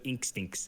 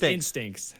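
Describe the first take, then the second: First: The word begins with an 'ink' sound. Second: The word begins with a plain 'in' sound. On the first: "I've always said ink stinks" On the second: "It's instincts"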